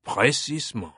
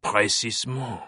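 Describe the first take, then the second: First: Smug. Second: Smug French inspector, satisfied. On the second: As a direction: savor it with a smug smile. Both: Acted. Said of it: "a smug smile crossed Fache's lips".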